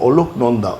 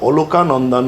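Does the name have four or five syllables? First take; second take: four; five. First: The name is said with four syllables. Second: The name is said with five syllables. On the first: The speaker calls it right. "নামটা মনে রাখবেন" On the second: The speaker calls it wrong. "নয়"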